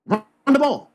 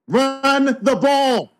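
First: Said in the usual way. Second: High, drawn-out emphatic call; Richard Sherman. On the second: Acted. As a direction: stretch each word out, pitched up. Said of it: "in my best Richard Sherman voice".

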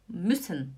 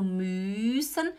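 First: "müssen" with a short, quick ü, lower; short vowel. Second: "müssen" with the ü drawn out and rising; wrong long vowel. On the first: Teacher giving the correct version, short vowel. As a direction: clip the ü short in "müssen", falling. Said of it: "eu falo müssen". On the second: Teacher showing students the wrong way, dragged vowel. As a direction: stretch the ü in "müssen" far too long. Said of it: "Eu não falo müssen". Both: Shown as a demonstration.

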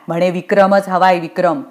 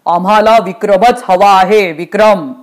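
First: Scornful repeat of a demand; understated sarcastic mimicry; mocking echo. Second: Emphatic, imperious order; forceful ruler's insistence; insistent demand. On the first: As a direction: parrot the order back dismissively. Rita echoes Yamraj's demand scornfully. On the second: Acted. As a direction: demand him by name with weight. Yamraj demands Vikram.

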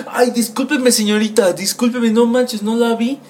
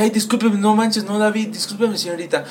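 First: Higher, hurried sorry-sorry voice; flustered apology. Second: Higher apology that trails off softer; flustered apology, fading. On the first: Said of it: "cuando vi eso dije". (disculpa nerviosa, con voz más aguda) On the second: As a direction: start pitched up and let it fade out. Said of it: "me disculpé y dije". (disculpa aguda que se apaga) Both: Retold or imitated.

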